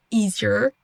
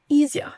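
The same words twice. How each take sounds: First: American EASIER with final R. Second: Higher British EASIER, no R. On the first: Teacher contrasting accents for learners, American EASIER. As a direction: EASIER rising onto an R-coloured ending. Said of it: "d'abord l'accent U S". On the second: Teacher contrasting accents for learners, British EASIER. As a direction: EASIER ending on a bare schwa. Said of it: "l'accent britannique". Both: Shown as a demonstration.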